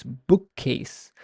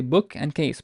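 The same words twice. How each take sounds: First: "bookcase" in one line with a prolonged k; slow "bookcase" with a long k at the join; joined, doubled K. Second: Said in the usual way. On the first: Shown as a demonstration. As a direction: run book into case, holding the k in "bookcase". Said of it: "join them together and say them in one line". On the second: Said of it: "If I separate them".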